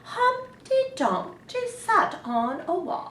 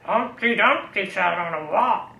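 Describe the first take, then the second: First: It is said in a grand royal voice. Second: It is said in a growly pirate voice.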